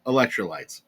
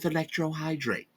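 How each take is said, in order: First: Electrolytes said properly, corrected; careful correction, Electrolytes; corrected word. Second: Electrohydrate said as a botched electrolytes; tongue-tied slip, electrohydrate; mispronounced word. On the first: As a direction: fix it to Electrolytes. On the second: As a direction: stumble into electrohydrate. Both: Real, not acted. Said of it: "I absolutely slaughtered that word".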